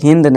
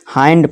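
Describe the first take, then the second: First: The vowel is a short 'ih' sound. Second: The vowel is a long 'eye' sound. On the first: The speaker calls it wrong. "इसे हिंद नहीं" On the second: The speaker calls it right. "इसे हाइंड पढ़ेंगे"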